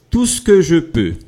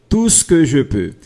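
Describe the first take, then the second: No difference in how they are said.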